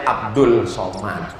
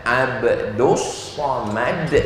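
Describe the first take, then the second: First: Said in the usual way. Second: Abdus Somad with the l blended into s, said abdus; spoken pronunciation. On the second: Shown as a demonstration. Preacher showing the crowd how Abdus Somad is really read, the l becoming s. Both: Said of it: "Tapi cara bacanya Abdus Somad".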